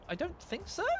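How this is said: The pitch goes up toward the end.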